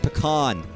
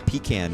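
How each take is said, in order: First: The word does not sound like 'pee can'. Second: The word sounds like 'pee can'. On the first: The speaker calls it right. "It's pecan" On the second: The speaker calls it wrong. "Like the people who say pecan. You mm, fucking idiots"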